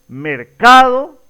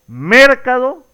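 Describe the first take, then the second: First: The stress is on the middle syllable. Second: The stress is on the first syllable. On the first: The speaker calls it right. "la mayor fuerza de voz se ubica justamente en la sílaba central" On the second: The speaker calls it wrong. "cambiar la fuerza de voz a cada una de las sílabas"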